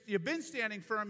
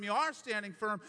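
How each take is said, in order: First: Been pressed hard in you've been standing firm; stress on been. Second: Are pressed hard in you are standing firm; are stressed as the key word. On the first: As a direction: lean on the word been to mark the past. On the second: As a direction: lean on the word are to mark the present. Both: Shown as a demonstration. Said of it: "verbal progressive aspect to it".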